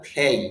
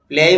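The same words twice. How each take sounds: First: The first sound has a puff of air. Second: The first sound has no puff of air. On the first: The speaker calls it right. "মুখ থেকে অতিরিক্ত বাতাস বের হবে" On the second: The speaker calls it wrong. "এই জন্য প্লে বলা যাবে না"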